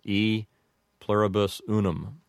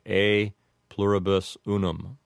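First: The first word sounds like 'ee'. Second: The first word sounds like 'ay'. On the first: The speaker calls it wrong. "commonly hear said by an English speaker" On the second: The speaker calls it right. "would sound like A"

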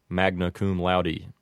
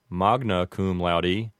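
First: It is said with Americanized vowels. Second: It is said with classical Latin vowels. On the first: "with an Americanized pronunciation" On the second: "as a correct pronunciation"

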